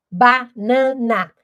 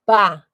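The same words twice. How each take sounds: First: "Banana" dito lento, cada sílaba aberta; sílabas marcadas. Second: "Ba-na-na" dito em três batidas separadas, mais alto; separando sílabas. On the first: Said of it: "Eu abro a minha boca". ("Banana" lento e silabado) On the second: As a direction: bata cada sílaba de "Ba-na-na" como quem conta. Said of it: "Então, eu tive três". ("Ba-na-na" silabado em voz alta) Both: Shown as a demonstration.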